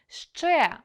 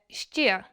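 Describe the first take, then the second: First: The initial consonant is pronounced hard. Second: The initial consonant is pronounced soft. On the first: The speaker calls it right. "вимовляємо твердо" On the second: The speaker calls it wrong. "М'якими шиплячі не бувають"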